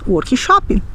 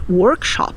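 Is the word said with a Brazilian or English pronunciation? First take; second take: Brazilian; English. First: The word has a Brazilian Portuguese pronunciation. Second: The word has an English-style pronunciation. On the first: The speaker calls it right. "nós diremos workshop" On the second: The speaker calls it wrong. "Nós não vamos dizer workshop"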